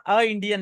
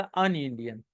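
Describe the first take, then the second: First: "अ Indian" with a bare vowel article, no n; wrong article shown. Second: "अन Indian" with n linking into the vowel, lower; correct article shown. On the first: Teacher showing students the mistake, "अ Indian" without linking n. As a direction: say "अ Indian" with a gap between the vowels. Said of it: "अ Indian नहीं होता". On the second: Teacher giving students the correction, "अन Indian" linked by n. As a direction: run "अन Indian" together through the n. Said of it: "Indian के साथ अ Indian नहीं होता". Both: Shown as a demonstration.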